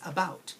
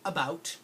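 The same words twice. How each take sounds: First: The first vowel is a weak 'uh' sound. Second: The first vowel is a full, stressed 'a' sound.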